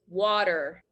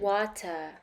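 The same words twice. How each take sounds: First: It is said in an American accent. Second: It is said in a British accent.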